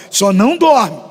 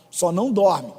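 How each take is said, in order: First: Só não dorme punched out loud; louder warning. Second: Said in the usual way. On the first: Shown as a demonstration. Pastor warning sleepy church, loud playful command. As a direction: bark it at the sleepy crowd. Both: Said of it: "Fala pra pessoa do seu lado".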